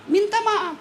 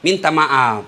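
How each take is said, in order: First: Minta maaf said much higher and softer; a coaxing, raised "minta maaf"; higher pleading. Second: Said in the usual way. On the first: Shown as a demonstration. Repeats apology two ways.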